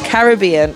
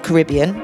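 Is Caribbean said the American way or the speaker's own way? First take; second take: own way; American. First: It is said in the speaker's own usual way. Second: It is said the way some Americans say it. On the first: "as I would say" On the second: "as some Americans would say"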